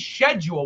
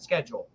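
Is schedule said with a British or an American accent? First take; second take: British; American. First: It is said with a British pronunciation. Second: It is said with an American pronunciation. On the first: This is how he spoke before moving to America. "He used to say schedule when I was a kid" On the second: This is how he speaks after years in America. "Now he said schedule"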